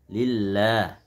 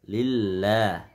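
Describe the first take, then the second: The two takes are said the same way.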